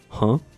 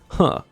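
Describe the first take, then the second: First: It is said as a rising question. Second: It is said flat, not as a question.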